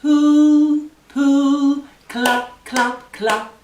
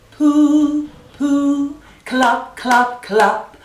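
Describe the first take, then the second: No difference in how they are said.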